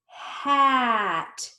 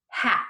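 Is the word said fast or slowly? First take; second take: slowly; fast. First: The word is stretched out slowly, sound by sound. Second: The word is said quickly as one unit. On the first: "Let's blend it slowly" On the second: "Fast like a word"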